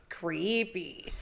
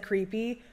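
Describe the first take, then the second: First: Lightly voiced eerie spirit, slower and softer; imitated spirit voice. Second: Said in the usual way. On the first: Investigator retelling what the spirit box said, imitated spirit voice. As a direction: draw the word out softly, imitating a ghostly voice. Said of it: "a voice came through clear as day and was like". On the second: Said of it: "Immediately after I said".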